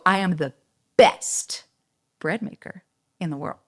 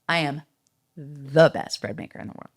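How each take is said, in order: First: It pauses before 'best', which is punched. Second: It flows without a pause before 'best'.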